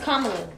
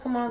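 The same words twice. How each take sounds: First: The first part sounds like the word comma. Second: The first part does not sound like comma. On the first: The speaker calls it right. "It's comma and love" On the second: The speaker calls it wrong. "I thought it was Kamala"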